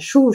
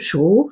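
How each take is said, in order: First: The pitch stays high and level. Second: The pitch rises from mid to high.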